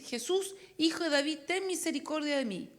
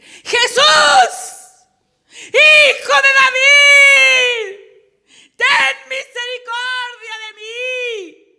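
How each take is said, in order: First: Slightly raised reading, no real shout; restrained, underpowered call for mercy; underplayed cry. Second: All-out cry for mercy over a crowd; sudden startling yell, every word stretched; desperate full shout. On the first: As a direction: read the plea higher but keep the volume down. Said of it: "Otra vez leí mal". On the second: Acted. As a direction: bellow it high with long drawn-out words. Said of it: "Ahora voy a leer bien".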